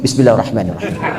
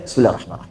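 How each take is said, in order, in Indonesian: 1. Dibaca sir, tapi dipepetkan ke mic. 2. Dibaca sir, nyaris tidak terdengar. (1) "Ini sudah silent tapi dipepetin ke mic" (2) "Bisa silent"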